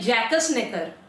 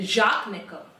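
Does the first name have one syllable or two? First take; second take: two; one. First: The first name is said with two syllables. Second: The first name is said with one syllable. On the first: The speaker calls it wrong. "इसको जैसे हम पढ़ेंगे तो हम तो बोलेंगे" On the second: The speaker calls it right. "Google भाई साहब बोल रहे हैं कि इनको प्रोनाउंस करते हैं"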